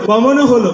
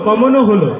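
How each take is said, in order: Both takes have the same delivery.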